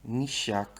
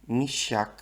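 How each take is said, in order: The two takes are said the same way.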